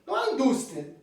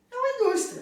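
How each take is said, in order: First: Said in the usual way. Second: Very high, amused little voice; tiny squeaky voice. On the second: Shown as a demonstration. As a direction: make the industry sound tiny and laughable. Mimics a tiny little industry.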